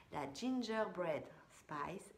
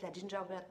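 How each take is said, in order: First: "Gingerbread Spice" slowly spelled out in English sounds; slow, deliberate English "la Gingerbread Spice"; careful English pronunciation. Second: Said in the usual way. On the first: Shown as a demonstration. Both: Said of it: "c'est dur à dire ça".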